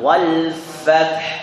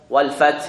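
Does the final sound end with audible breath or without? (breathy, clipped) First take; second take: breathy; clipped. First: The final h is released with audible breath. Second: The final h is dropped without any breath. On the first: The speaker calls it right. "Angin wal fath" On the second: The speaker calls it wrong. "wal fath itu haknya hilang"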